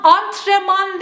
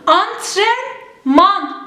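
First: Antrenman said antreman without the n; the wrong antreman; yanlış telaffuz. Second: Antrenman spelled out slowly with the n; drawn out Antrenman, every letter; doğru telaffuz, yavaş. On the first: (yanlış söyleyiş: antreman) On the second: (yavaş ve doğru: Antrenman) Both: Shown as a demonstration. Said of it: "Antrenman değil".

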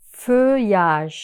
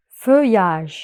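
No difference in how they are said.

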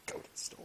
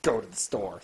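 First: Whispered repeat; a whispered mocking echo. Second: Dropped low, mocking advice; a low, mocking aside; mock deep voice. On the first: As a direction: breathe it out under the breath. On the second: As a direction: sneer it in a low put-on voice.

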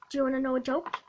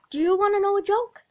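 First: Said in the usual way. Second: Faster, louder, pushier ask; eager nagging. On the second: Acted. Joker pestering a classmate for attention, fast and loud. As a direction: pester them with rising eagerness.

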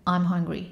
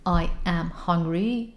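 First: Quick contracted form; contracted, one breath. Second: Slow, separate words. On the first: Teacher modeling the natural contracted way. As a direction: run it together as one syllable. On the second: Teacher showing the slow wrong way. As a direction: spell out each word slowly. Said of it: "نمیگن دیگه". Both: Shown as a demonstration.

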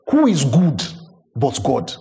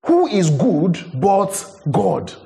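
First: Said in the usual way. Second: "Who is good but God?" drawn out slowly, each word weighted; slow right down and lean on "Who"; slow, deliberate second take of "Who is good but God?"; slow emphatic repeat. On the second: Shown as a demonstration.

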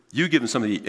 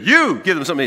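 First: Said in the usual way. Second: "You" punched higher and louder at the start; stress on YOU. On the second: Shown as a demonstration. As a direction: hit the word "You" hard, the rest follows. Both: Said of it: "that's the word you emphasize".

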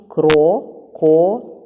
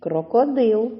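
First: "Крокодил" as Кро... ко... дил, loud and slow; split into syllables. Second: Said in the usual way. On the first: Shown as a demonstration. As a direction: say "Крокодил" slowly, pausing after each syllable. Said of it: "чи правильно поділили ви". («Крокодил» голосно й повільно, по складах) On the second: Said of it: "Будьте уважні".

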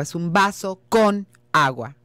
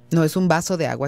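First: "con" held long and leaned on, "es un vaso con agua"; stress on con. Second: Said in the usual way. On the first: Shown as a demonstration. Teacher correcting a student's wording, stress on "con". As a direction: lean hard into "con" to correct "de".

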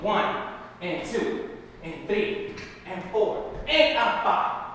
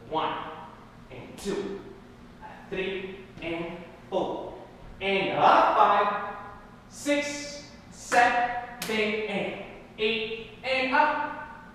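First: Said in the usual way. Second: Slow counting. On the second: Shown as a demonstration. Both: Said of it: "Let's go slow".

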